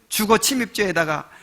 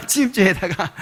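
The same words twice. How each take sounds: First: Said in the usual way. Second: 침입죄에다가 said again through a chuckle; amused repetition; laughing repeat. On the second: Shown as a demonstration. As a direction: laugh as you repeat the charge.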